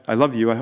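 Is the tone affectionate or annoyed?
affectionate. It is said warmly and tenderly. The speaker sincerely cares about the listener. "you talk to your wife or your kids, oh"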